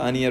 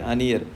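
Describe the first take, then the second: First: The two words are said fast and blended. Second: The two words are said slowly and apart. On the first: "जैसे speed up करेंगे अपने आप क्या होगा, अनियर हो जाएगा" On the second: "धीरे धीरे"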